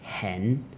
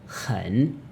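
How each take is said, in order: First: The vowel sounds like 'eh'. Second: The vowel sounds like 'uh'. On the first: The speaker calls it wrong. "So don't say hen" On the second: The speaker calls it right. "It's literally hun"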